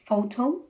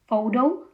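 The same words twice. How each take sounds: First: The t is a crisp, clear t. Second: The t sounds like a quick r. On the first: "instead of" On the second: "the T as an R"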